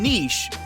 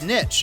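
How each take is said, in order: First: The word is said the British way. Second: The word is said the American way. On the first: "and niche in British English" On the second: "it's pronounced niche in American and Canadian English"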